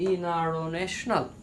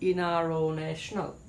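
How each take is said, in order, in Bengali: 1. t সাউন্ডটা পুরোপুরি বাদ যায়। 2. t সাউন্ডটা পুরোপুরি বাদ যায়।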